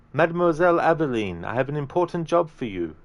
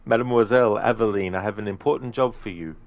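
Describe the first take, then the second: First: Put-on higher, lilting Italian accent; accidental Italian accent. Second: Put-on game character retake without the Italian accent; intended game accent. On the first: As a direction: slip into an Italian accent, pitched up. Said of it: "did an Italian accent there". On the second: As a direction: redo the line, dropping the Italian lilt. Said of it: "I'll start again".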